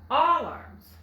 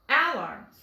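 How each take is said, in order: First: The first vowel is an ah sound. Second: The first vowel is the a of apple. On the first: "let's try the ah sound, like in wallet" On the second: "it's going to say its short sound. Ah, like apple"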